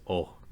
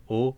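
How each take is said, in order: First: Second o with tongue root pulled back; retracted o trailing into breath; pharyngealized vowel. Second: Said in the usual way. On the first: Shown as a demonstration. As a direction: let o end in a breathy voice. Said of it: "pull the root of our tongue back". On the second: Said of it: "and o becomes o".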